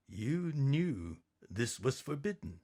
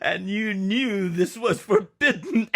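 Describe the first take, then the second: First: Stern quiet. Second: Louder, higher amused tease breaking into a laugh. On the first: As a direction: quietly scold your wife. Daddy confronts Mama. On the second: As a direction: tease your wife, then laugh out loud. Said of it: "he smiled". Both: Acted.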